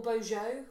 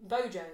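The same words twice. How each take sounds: First: Bojo with a soft zh, BOH-zhoh; soft French j. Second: Bojo with a hard English j, BOH-joh; hard-j pronunciation. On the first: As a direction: say Bojo with the s sound of "measure". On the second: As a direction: say Bojo with the j of "jam". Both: Shown as a demonstration. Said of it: "would you pronounce it Bojo".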